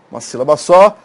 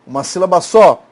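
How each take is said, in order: Both takes have the same delivery.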